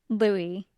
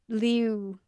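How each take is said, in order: First: It is said as two syllables, 'loo-ee'. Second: An 'ee' and 'oo' sound blend in one syllable. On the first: The speaker calls it wrong. "which is different than than Louis" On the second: The speaker calls it right. "it's like a combination of the E and oo sound somehow"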